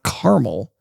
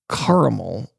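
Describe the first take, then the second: First: The middle A is dropped, giving two syllables. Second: The middle A is pronounced, giving three syllables. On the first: The speaker calls it wrong. "It's not caramel" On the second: The speaker calls it right. "put that extra A in there"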